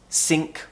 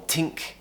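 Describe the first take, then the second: First: The word begins with an s sound. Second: The word begins with a t sound. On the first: "pronounce ... think as sink" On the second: "or tink"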